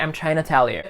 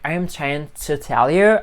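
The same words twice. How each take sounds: First: The words are reduced and run together. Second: Each word is said separately and fully. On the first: "I'm saying" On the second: "Not saying like"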